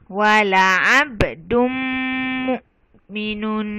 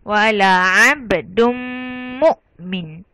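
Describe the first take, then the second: First: The last word ends with a full "-un" ending. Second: The last word is cut short without "-un". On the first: The reading continues on. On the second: The reader stops here.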